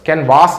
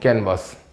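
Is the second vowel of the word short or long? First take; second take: long; short. First: The second vowel is long. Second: The second vowel is short. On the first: The speaker calls it wrong. "कैनवास नहीं" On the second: The speaker calls it right.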